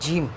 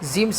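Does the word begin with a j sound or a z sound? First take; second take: j; z. First: The word begins with an English j sound. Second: The word begins with a z-like sound. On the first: The speaker calls it right. "जीम है, जीम। ... जे जैसे बोलते हैं ना, वैसे ही जीम पढ़ेंगे हम" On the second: The speaker calls it wrong. "बहुत से लोग जीम जीम पढ़ते हैं, जीम सही नहीं है"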